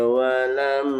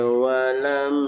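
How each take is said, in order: The two takes are said the same way.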